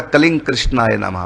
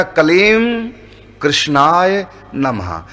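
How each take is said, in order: First: कलिंग कृष्णाय नमः run together, the m of कलीम turning to a nasal ng; joined with sandhi. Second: कलीम and कृष्णाय नमः said apart, slowly, lips closing on the m of कलीम; separated, no sandhi. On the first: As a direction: blend कलीम into कलिंग with no lip closure before कृष्णाय. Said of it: "कलीम और कृष्ण को दोनों को इकट्ठे बोलें". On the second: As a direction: pronounce कलीम कृष्णाय नमः word by word with a full stop between. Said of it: "यदि हम बिना संधि के बोलें". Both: Shown as a demonstration.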